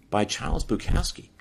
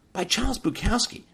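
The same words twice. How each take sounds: First: Said in the usual way. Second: "By Charles Bukowski" thrown up much higher in disbelief; incredulous emphasis. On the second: Real, not acted. Repeating the poet's name to stress the shock, "By Charles Bukowski" much higher.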